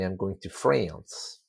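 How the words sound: It is said in an American accent. "an American would say"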